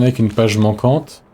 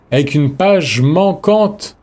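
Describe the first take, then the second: First: Said in the usual way. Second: "page manquante" stretched slow and higher; slow, raised-pitch stress on "page manquante"; drawn-out disbelief. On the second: Real, not acted. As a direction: repeat it incredulously, dragging out "page manquante". Repeats item name in disbelief.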